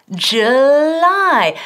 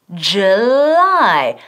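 The two takes are said the same way.

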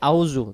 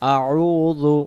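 First: The vowels run together without a throaty catch. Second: A throaty 'ain' catch separates the vowels. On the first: The speaker calls it wrong. "আইন অক্ষরটা এখানে বাদ চলে যায়।" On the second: The speaker calls it right. "আইন অক্ষরটা সহ বলতে হলে"

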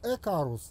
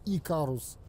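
First: The name begins with an 'e' sound. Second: The name begins with an 'ee' sound. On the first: This is what it was called abroad. "у них назывался Экарус" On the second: This is what it was called at home. "а у нас Икарус"

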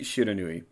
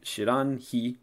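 First: The third syllable is pronounced 'nu'. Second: The third syllable is pronounced 'hi'. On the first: This is the reading actually used. "But it's clearly Shiranui" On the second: This reading matches the meaning 'unknown fire'. "that would imply that the pronunciation here should be Shiranhi"

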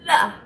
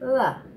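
First: It is said heavily with a firm tongue touch. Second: It is said lightly with a barely touching tongue.

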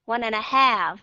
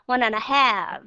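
No difference in how they are said.

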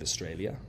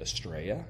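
First: The word is said in full with all syllables. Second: The word is clipped to two syllables, 'Straya'. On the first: "instead of Australia" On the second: "They say Australia"

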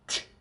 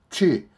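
First: The consonant is said with no following vowel. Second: A vowel sound follows the consonant. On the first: The speaker calls it right. "무성음입니다" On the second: The speaker calls it wrong. "취 하면 안 됩니다"

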